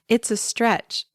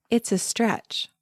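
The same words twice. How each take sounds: The two takes are said the same way.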